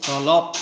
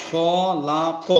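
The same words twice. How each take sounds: First: খলাক run together and cut off on the final q; stopped ending. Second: খ লা ক one by one, final vowel sounded; separate syllables. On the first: Teacher showing waqf to learners, খলাক stopped on the last consonant. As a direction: stop খলাক hard on ক, no vowel. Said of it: "ওয়াকফ করতেছি, এজন্য". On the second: Teacher breaking the word down, খ লা ক in separate open syllables. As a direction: spell out খ লা ক with a vowel on ক. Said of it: "কিন্তু এখানে আমরা ওয়াকফ করতেছি". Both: Shown as a demonstration.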